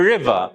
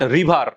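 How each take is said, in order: First: The r is said in an English way. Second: The r is said in a Bengali way. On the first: The speaker calls it right. "It's river" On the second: The speaker calls it wrong. "It's not river"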